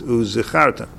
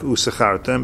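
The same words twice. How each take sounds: First: The consonant after 'u' is a clear z. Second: The consonant after 'u' sounds like s. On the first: It means remembering. The speaker calls it right. "it's uzichartem" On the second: It sounds like serving only for a reward. The speaker calls it wrong. "you don't want it to sound like uzichartem"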